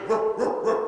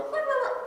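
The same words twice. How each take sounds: First: Dog teacher's demonstration bark; bassy bark. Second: Very high, squeaky yips; puppy. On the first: Shown as a demonstration. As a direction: show the pup a fuller bark. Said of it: "You wanna put more bass in". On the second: Acted. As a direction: answer in a tiny puppy bark. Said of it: "You go".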